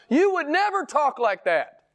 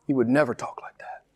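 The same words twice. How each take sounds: First: High-pitched preacher's reproof; impassioned rebuke. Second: Hushed rebuke. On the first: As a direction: drive the rebuke home way up in pitch. Climax of rebuke, then repeated low. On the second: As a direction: drop right down in pitch and volume, gravely. Same rebuke repeated low and hushed. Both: Real, not acted.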